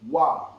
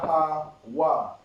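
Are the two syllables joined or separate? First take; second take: joined; separate. First: The two syllables merge into one sound. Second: Each syllable is said separately with breaks. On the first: "Wa and the ha is connected, so you pronounce it together"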